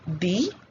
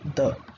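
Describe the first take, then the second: First: It is said with a long 'ee' vowel. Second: It is said with a short 'uh' vowel. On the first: It is the form used before a vowel sound. "Vowel sound" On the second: It is the form used before a consonant sound. "Consonant sound"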